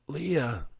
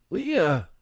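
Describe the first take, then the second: First: Calling Leah's name, higher. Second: Louder, higher desperate call of "Leah!"; shouting name. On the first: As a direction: call her name in the dark. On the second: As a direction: yell "Leah!" in panic. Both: A narrator's reading. Calling wife after crash.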